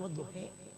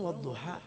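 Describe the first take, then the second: First: The final vowel is bent toward e. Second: The final vowel is an open a. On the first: This is a rarely used reading style. "ini wadduhe" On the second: This is the common reading. "Orang wadduha"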